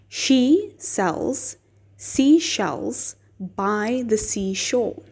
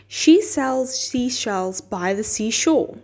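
First: The phrase is said at a slow pace. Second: The phrase is said at a faster pace. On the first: "try it slowly with me" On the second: "Now a little faster"

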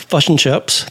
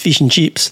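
First: It is said in a New Zealand accent. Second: It is said in an Australian accent.

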